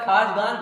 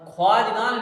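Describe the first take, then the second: First: No w sound follows the kh. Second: A w sound follows the kh. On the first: This is how it is read. The speaker calls it right. "मगर खाजगान पढ़ा जाएगा" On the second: This follows the spelling. The speaker calls it wrong. "ख्वाजगान लिखा जाएगा"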